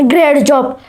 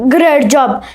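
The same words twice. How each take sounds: No difference in how they are said.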